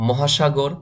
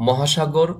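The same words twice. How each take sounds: Both takes have the same delivery.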